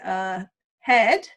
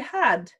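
First: The word is said with a New Zealand vowel. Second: The word is said with an Australian vowel. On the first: "we say had" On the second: "whereas the Australians say had"

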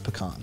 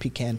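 First: It uses the general, non-southern pronunciation of the word. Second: It uses the southern pronunciation of the word. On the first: The speaker is from outside the American South. "Outside of the South, you tend to hear pecan" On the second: The speaker is from the American South. "It's a southern pronunciation"

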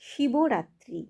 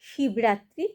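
First: The first part ends with an added 'o' vowel. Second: The first part ends on a bare consonant. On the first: The speaker calls it right. "একসাথে মিলে হবে" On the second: The speaker calls it wrong. "কখনোই শিবরাত্রি হবে না"

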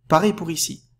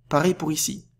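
Both takes have the same delivery.

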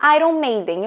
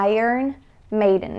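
First: It is pronounced the Portuguese way. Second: It is pronounced the English way. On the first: "em português, você fala Iron Maiden" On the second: "em inglês, nós falamos Iron Maiden"

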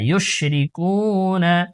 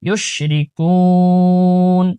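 First: The word ends with a final 'a' vowel. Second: The word ends on the 'n' with no vowel. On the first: The reading continues without stopping. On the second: The reading stops at this word.

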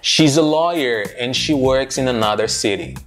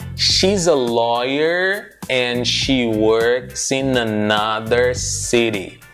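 First: It is said at a natural, quick speed. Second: It is said slowly, with words still linked.

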